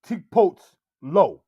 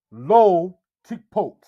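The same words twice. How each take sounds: First: Lo placed after tikpot; wrong word order. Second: Lo said first, slow and loud; correct word order. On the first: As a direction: say tikpot first, then lo. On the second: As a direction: put lo before tikpot, slowly. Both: Shown as a demonstration. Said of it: "You would not say".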